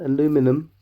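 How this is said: It is said the American way, aluminum.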